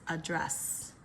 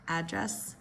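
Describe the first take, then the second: First: The stress is on the second syllable. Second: The stress is on the first syllable. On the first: It is used as a verb. "verbs second syllable" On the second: It is used as a noun. "Nouns typically first syllable"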